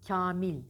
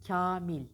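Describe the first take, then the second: Both takes have the same delivery.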